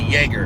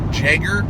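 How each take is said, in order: First: The word begins with a Y sound. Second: The word begins with a J sound.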